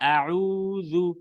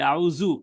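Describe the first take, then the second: First: The middle consonant is a soft 'th' sound. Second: The middle consonant is a 'z' or 'j' sound. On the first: It means seeking refuge. The speaker calls it right. "এটা হচ্ছে মেইন মাখরাজ" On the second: The intended meaning is lost. The speaker calls it wrong. "সেটা জিমে চলে যাবে বা জায় চলে যাবে"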